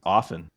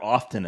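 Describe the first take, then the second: First: The word is said without a T sound. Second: The word is said with a T sound. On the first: The speaker calls it right. "the T is actually silent" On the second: The speaker calls it wrong. "Or often, as you three said"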